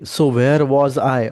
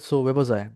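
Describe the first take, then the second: First: Every word, including 'where', is said fully. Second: The word 'where' is shortened to 'we'. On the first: "ती सो वेअर was I असं नाही बोलत आहे" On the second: "fast speakers बोलताना sounds खूप shorten करतात"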